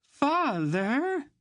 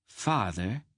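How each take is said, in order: First: High, loud wail of father. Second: Curt snap at her father; short impatient snap; snapping. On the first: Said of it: "Anhelde wailed". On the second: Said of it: "Anhelde snapped". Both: A narrator's reading.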